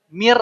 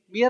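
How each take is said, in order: First: It is said without nasal sound. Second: It is said with nasal sound. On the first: The speaker calls it right. "cukup dengan mir rabbihim" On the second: The speaker calls it wrong. "Jangan sampai ada gunnahnya. ... Jangan sampai begitu"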